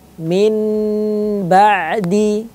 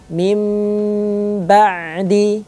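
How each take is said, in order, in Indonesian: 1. Huruf n tetap dibaca biasa sebelum b. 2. Huruf n berubah menjadi m sengau sebelum b. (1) "Tidak boleh dibaca min ba'di" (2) "dirubah menjadi mim disertai dengan dengung"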